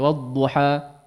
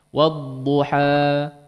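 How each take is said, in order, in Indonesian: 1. Vokal akhir itu dipotong sangat pendek. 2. Vokal akhir itu ditahan selama dua ketukan. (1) "terlalu pendek" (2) "Tidak boleh lebih dari dua harakat"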